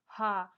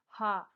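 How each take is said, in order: No difference in how they are said.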